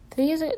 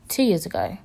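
First: "Three years ago?" rising high in doubt; questioning rise. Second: Said in the usual way. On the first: Real, not acted. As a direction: ask "years" up high, unsure.

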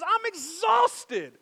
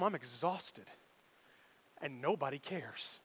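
First: Slow, higher, drawn-out tired sigh of words; mock exhausted. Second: Softer, lower, tired and worn down; quiet everyday exhaustion; weary. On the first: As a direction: let it sag like he's worn out. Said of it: "he just says". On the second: Shown as a demonstration. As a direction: let it sink like a long day. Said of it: "when I get home".

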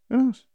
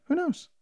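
First: Higher and louder, punch KNOWS; louder emphatic repeat. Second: Higher, questioning who knows; rising shrug. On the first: Musing to viewers, repeating it louder and more emphatic. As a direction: hit the repeat harder, as if daring anyone to answer. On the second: Musing on the Chernobyl coincidence, rising, shrugging. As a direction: toss it off as an open question. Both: Real, not acted.

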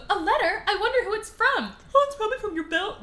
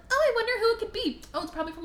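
First: High, hurried put-on heroine voice; mock Belle. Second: Mock Belle. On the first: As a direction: play a wide-eyed heroine, pitched way up. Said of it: "do that again so I don't sound stupid". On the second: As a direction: wonder aloud in a high put-on voice. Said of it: "I'm gonna do that again".

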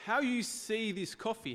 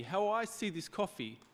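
First: "you" lifted high in "How you see this coffee"; slow, leaning on "you" in "How you see this coffee"; stress on you. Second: "I" lifted and stressed in "how I see this coffee". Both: Shown as a demonstration. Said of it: "doesn't change what this coffee is like".

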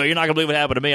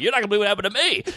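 First: Said in the usual way. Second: Eager rush. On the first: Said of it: "And they go". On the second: Retold or imitated. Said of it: "I'm like".

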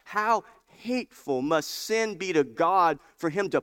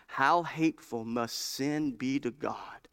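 First: Hateful repeated louder and higher, leaning on How; emphatic repeat. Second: Said in the usual way. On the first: Shown as a demonstration. Preacher repeats the quote to his church, emphatic. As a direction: drive the quote home to the congregation. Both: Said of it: "Did you, do you hear that?".

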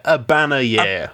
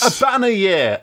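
First: Said in the usual way. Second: Shouted. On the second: Shown as a demonstration.

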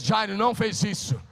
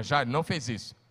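First: "Jairo não fez isso" proclaimed loud and high, punching "não"; said louder and higher. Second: Said in the usual way. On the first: Shown as a demonstration. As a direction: call it out again with more force. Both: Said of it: "Diga, [name]".

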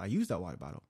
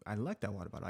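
First: The word use pushed as a correction; stress on use. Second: Like slightly leaned on, softer overall; stress on like. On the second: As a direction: lean on the word like. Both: Real, not acted.

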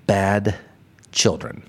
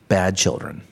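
First: "Bad" and "children" split by a long pause; slow, weighted repeat. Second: Said in the usual way. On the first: Shown as a demonstration. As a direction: let "children" drop lower and land heavy.

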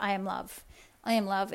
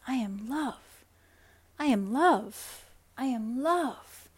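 First: Hollow affirmation. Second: Slow "I am love", each one felt and savoured; mean every word, letting it sink in; heartfelt affirmation. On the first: Coach showing the wrong way to affirm, hollow and rote. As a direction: say it like a chore you don't believe. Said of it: "You can't just be like". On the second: Coach showing the right way to affirm, slow and heartfelt. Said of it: "and really feeling into what that feels like". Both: Shown as a demonstration.

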